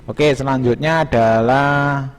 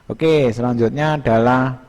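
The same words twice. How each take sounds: The two takes are said the same way.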